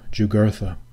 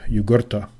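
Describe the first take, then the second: First: The name is said with anglicized English sounds. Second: The name is said with classical Latin sounds. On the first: The speaker calls it wrong. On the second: The speaker calls it right.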